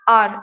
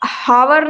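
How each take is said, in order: First: It starts with a vowel, one syllable. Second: It starts with h and has two syllables. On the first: The speaker calls it right. "आर बोलते हैं" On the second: The speaker calls it wrong. "यहाँ पे हावर नहीं पढ़ना है"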